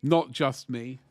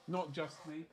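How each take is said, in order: First: Said in the usual way. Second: Much softer repeat; a faint afterthought echo; quiet echo. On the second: Shown as a demonstration. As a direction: echo yourself under your breath.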